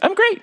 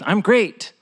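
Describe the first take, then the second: First: It is said in a cartoonish, Mickey Mouse-like voice. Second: It is said in the speaker's normal voice.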